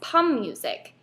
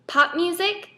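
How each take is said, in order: First: The first word ends with an M sound. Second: The first word ends with a P sound.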